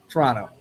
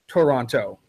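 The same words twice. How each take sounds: First: The word is squeezed into two syllables. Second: The word is said with three full syllables. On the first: The speaker is a local. "We say Toronto, Toronto. It becomes a two-syllable word" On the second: The speaker is not from the area. "somebody who isn't from around here because they say Toronto"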